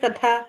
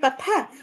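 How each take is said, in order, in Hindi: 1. मध्य व्यंजन घोष 'dh' जैसा सुनाई देता है। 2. मध्य व्यंजन अघोष 'th' जैसा सुनाई देता है। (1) "थ नहीं ध के जैसे सुनाई देगा" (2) "हम बोलते हैं कथा"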